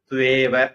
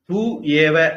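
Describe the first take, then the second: First: The two words are merged into one word. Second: The two words are said as separate words.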